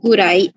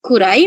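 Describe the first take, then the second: First: The word begins with a voiced g sound. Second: The word begins with a voiceless k sound. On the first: The word follows the question word dono. "kalau dia digabungkan dengan kata tanya dono, berarti kurai menjadi gurai" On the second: The word stands alone. "kalau berdiri sendiri kurai"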